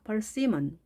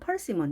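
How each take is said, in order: First: The stress is on the second syllable. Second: The stress is on the first syllable. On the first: The speaker calls it right. "가운데 있다는 것" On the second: The speaker calls it wrong. "이렇게 앞에 두지 마시고요"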